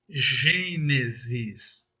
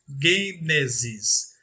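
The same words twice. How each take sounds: First: It begins with a soft, drawn-out zh sound. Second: It begins with a hard g sound. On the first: This is the Portuguese reading of the word. The speaker calls it wrong. "aquele som arrastado como se lêssemos" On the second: This is the Greek reading of the word. The speaker calls it right. "leríamos Gênesis"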